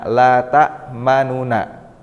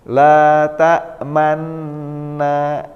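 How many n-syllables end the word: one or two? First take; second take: two; one. First: It ends with two separate syllables, nu and na. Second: It ends with one merged double-n syllable. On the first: This is the word's original underlying form. "asal katanya ini adalah la tak manuna" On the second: This is how the word is actually recited. "Tetapi cara membacanya la tak manna"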